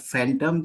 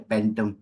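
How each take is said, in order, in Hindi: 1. इस शब्द की शुरुआत f की आवाज़ से होती है। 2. इस शब्द की शुरुआत p की आवाज़ से होती है।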